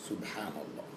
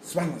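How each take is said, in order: First: It is said slowly and clearly. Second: It is said fast and slurred.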